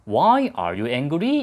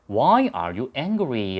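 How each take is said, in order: First: The voice rises at the end. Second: The voice falls slightly at the end. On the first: The speaker calls it wrong. "이게 아니고" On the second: The speaker calls it right. "끝을 살짝 내려준다"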